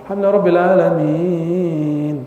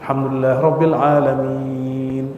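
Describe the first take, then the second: First: It is recited with heavy, showy melodic ornament. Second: It is recited plainly with little melodic ornament. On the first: The speaker calls it wrong. "aduh gaya bener ini. Gak usah begitu" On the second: The speaker calls it right. "Udah segitu aja sampai terakhir"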